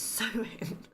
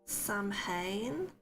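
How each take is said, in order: First: It is said like 'sow-in', unlike its spelling. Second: It is said the way it is spelled. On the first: The speaker calls it right. "Why spell it Samhain if it's sewing?" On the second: The speaker calls it wrong. "I feel like I've just said that horribly wrong"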